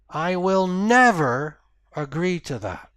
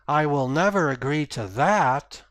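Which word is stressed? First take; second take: never; that. First: The stress falls on the word never. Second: The stress falls on the word that. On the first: Nothing can change the speaker's mind. "that's the end of the conversation" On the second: A better offer might change the speaker's mind. "if I put emphasis at the end of the sentence"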